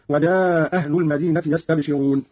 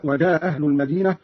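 First: وجاء أهل merged as a long "wajaaa ahl"; وجاء without hamza, held long; dropped hamza, prolonged. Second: وجاء أهل merged as "waja ahl", short vowel; وجاء without hamza, not prolonged; dropped hamza, short. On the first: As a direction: drop the stop in وجاء and stretch the vowel. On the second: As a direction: drop the stop in وجاء and keep it brief. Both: Shown as a demonstration. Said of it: "بإسقاط الهمزة وعليه المد والقصر هكذا".

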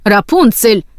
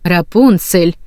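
First: Sharper cry of the name, restrained; understated angry outburst; mild narrated shout. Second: Restrained maternal warning; stern, held-back reproof. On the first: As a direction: cut her off with a half-raised cry. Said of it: "закричала матушка Готель". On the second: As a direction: say the name as a caution. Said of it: "В голосе матушки Готель звучало предупреждение". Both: A narrator's reading.

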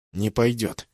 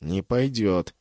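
First: Hoarse, winded refusal from the ground; wheezing from the floor. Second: Said in the usual way. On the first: A narrator's reading. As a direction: rasp it out after a blow to the gut. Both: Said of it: "снова прохрипел я с пола".

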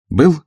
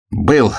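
First: БЫЛ? pitched high with a questioning lift; short, high-pitched query on БЫЛ?. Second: БЫЛ as a mildly joyful, raised confirmation; a touch of joy on БЫЛ; joyful answer. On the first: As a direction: ask БЫЛ? sharply higher and a little louder. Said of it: "спросил адъютант". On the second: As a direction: answer БЫЛ gladly, pitched up. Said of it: "радостно ответил человек в полушубке". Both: A narrator's reading.

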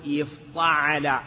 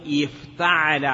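First: افتعل with the t turned into emphatic ṭ; heavy, dark ṭa in افتعل, drawn out; wrong pattern, heavy ṭ. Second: افتعل with a plain light t; clear, unemphatic t in افتعل; correct pattern, light t. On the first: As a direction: slowly say افتعل as if-ṭa-ʕa-la. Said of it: "لا نقول". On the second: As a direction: say افتعل as if-ta-ʕa-la, keeping the ta thin. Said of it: "نقول". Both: Shown as a demonstration.

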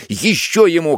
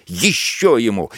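First: Ещё ему repeated, pitched higher and pushed harder; higher shouted order. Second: A first call of Ещё ему, level and firm; officer shouting to the soldiers; shouted order. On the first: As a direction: escalate the cry Ещё ему. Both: A narrator's reading. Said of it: "кричит во всё своё горло".

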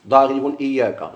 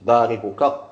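First: Slow, deliberate ضارب إياك with separate pronoun; wrong form demo. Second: ضاربك said as one joined word, rising at the end; correct form demo. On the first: Teacher shows students the form they must not say, slowly. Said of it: "ما تقولش ضارب إياك". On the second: Teacher gives students the correct attached form, rising. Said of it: "ضاربك ما تقولش". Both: Shown as a demonstration.

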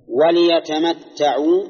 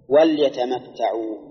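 First: وليتمتعوا read slowly with "li", a short i after the lam; kasra on the lam. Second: وليتمتعوا read slowly with a vowelless lam, "wal-ya"; sukun on the lam. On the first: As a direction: recite وليتمتعوا drawn out as wa-li-yatamatta'u. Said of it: "مكسورة". (تلاوة «وليتمتعوا» ببطء مع كسر اللام) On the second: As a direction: recite وليتمتعوا as wal-yatamatta'u, no vowel after l. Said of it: "بسكون اللام". (تلاوة «وليتمتعوا» ببطء مع تسكين اللام) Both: Shown as a demonstration.

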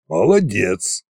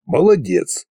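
First: МОЛОДЕЦ said evenly with a falling end; restrained approval. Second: МОЛОДЕЦ pitched up, then falling; grudging praise. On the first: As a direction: grant МОЛОДЕЦ as measured praise. Koschei nods approval. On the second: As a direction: give МОЛОДЕЦ with a higher, pointed lilt. Koschei dismisses the dragon reproachfully. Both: A narrator's reading.

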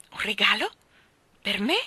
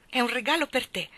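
First: Questioning Un regalo with a rise; Mary exclaims at the unexpected gift, surprised. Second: Said in the usual way. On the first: Acted. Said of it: "esclamò Mary". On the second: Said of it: "Indovina cosa c'è qua sotto?".

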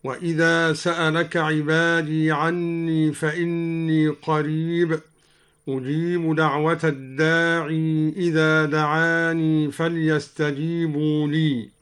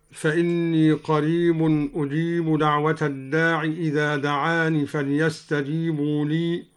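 First: "الداعي" and "دعاني" end in a long ee; final ya sounded. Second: Said in the usual way. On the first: Shown as a demonstration. Teacher shows al-Duri's reading, long ee ending "الداعي" and "دعاني". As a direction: hold the ya on "الداعي" and "دعاني" when linking. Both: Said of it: "قرأ الدوري بإثبات الياء وصلا".

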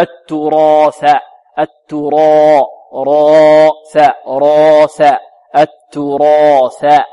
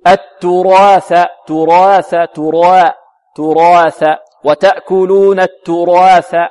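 First: Slow, loud التراث, alif dark all through; evenly heavy alif. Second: التراث with alif sliding from heavy to thin; half-heavy alif. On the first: Teacher corrects the mistake, steady heavy alif in التراث. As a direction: hold the "raa" of التراث full and heavy until th. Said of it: "خطأ، لا". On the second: Teacher imitates a mistake, gliding alif in slow التراث. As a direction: begin the long a of التراث dark, then thin it before th. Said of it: "يأتي بالألف جزء منها يتبع الراء في التفخيم". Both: Shown as a demonstration.

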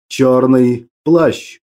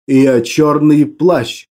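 First: Very slow, low and ominous; dark lord. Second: Slow, low and ominous; menacing villain, drawn out slowly; dark lord. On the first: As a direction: confirm it like a menacing villain. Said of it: "подтвердил я". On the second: Continues ominous self-introduction. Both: A narrator's reading.

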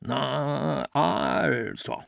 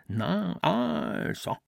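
First: Lightly voiced stern father, stretched A, clipped-off O; gently mimicking his father's satisfied verdict. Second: Much higher, rising mock of the father; he parrots his father's tone to torment himself, high and rising; a higher, self-tormenting echo of the father's voice. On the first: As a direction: drawl the A long and snap the O short, a hint of a stern father. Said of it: "las mit der Stimme seines Vaters". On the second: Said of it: "sich damit zu quälen".

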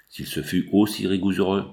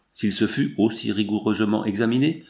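First: Reading stumble on rigoureux, stopped short; misread then cut off. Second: Said in the usual way. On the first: Real, not acted. Reader stumbling over the text, cut-off misreading. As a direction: trip over the word rigoureux and break off.

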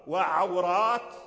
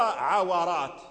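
First: Slow وعورات as wa-ʕaw-rāt; silent wāw. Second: عورات as ʕa-wa-rāt, short a on the wāw; opened wāw. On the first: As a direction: close the syllable on the wāw in وعورات. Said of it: "كلها الواو ساكن". (وعورات بإسكان الواو) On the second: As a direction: give the wāw in عورات its own vowel. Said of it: "وقد قرأ الأعمش". (عورات بفتح الواو) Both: Shown as a demonstration.

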